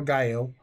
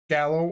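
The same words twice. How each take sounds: First: Gallo said GUY-oh, no L sound; Spanish-style pronunciation. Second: Gallo said GAL-oh, with an L; Italian-style pronunciation. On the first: Host giving both readings of the name, second Gallo as GUY-oh. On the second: Host giving both readings of the name, first Gallo as GAL-oh. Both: Shown as a demonstration. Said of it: "I don't know if it's of Spanish descent".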